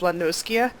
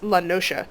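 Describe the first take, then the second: First: The middle consonant sounds like 'sk'. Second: The middle consonant sounds like 'sh'. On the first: The speaker calls it wrong. "I would pronounce this Lanoskia because the S C" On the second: The speaker calls it right. "apparently it's Lanosha, which is like ocean, like that sound"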